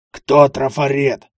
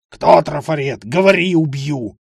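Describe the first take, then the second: First: Slow, loud, sepulchral question; grave voice. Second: Furious interrogation. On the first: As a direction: ask it like a voice from the grave. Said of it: "могильным голосом произнёс". (могильный голос, медленно) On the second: Разъярённый участковый допрашивает. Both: Acted.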